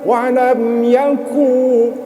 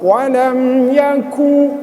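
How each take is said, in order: No difference in how they are said.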